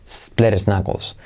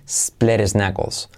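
The two takes are said the same way.

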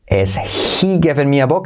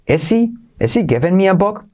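First: The h in he is breathed out clearly. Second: The h in he is left out entirely. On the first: "la hacemos aspirada" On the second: "si la saltamos"

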